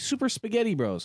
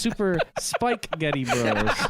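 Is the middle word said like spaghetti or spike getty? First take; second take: spaghetti; spike getty. First: The middle word sounds like the food spaghetti. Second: The middle word is split as spike getty. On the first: The speaker calls it wrong. "but that's not actually it" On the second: The speaker calls it right.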